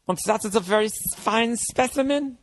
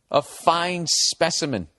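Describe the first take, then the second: First: Hammed-up doctor savouring FINE SPECIMEN, pitched high; Nazi doctor. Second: Slow, mocking echo of the phrase; mocking repeat. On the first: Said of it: "one of those Nazi fucking doctors". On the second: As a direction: stretch out FINE SPECIMEN, mocking the writer. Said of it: "You sound like one of those".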